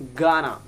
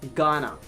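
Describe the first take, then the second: First: The words blend into one reduced word. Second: The same.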